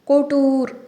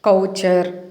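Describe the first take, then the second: First: It is said like koh-toor, with a t sound. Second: It is said like kow-cher, with a ch sound. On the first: The speaker calls it right. "ఈ వర్డ్ని మనం కోటూర్ అని పలకాలండి" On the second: The speaker calls it wrong. "జనరల్గా మనం కౌచర్ ఏంటి"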